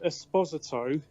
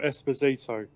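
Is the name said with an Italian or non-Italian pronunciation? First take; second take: Italian; non-Italian. First: The name is pronounced the Italian way. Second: The name is pronounced a non-Italian way.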